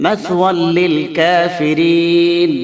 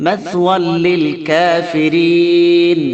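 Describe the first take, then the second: Both takes have the same delivery.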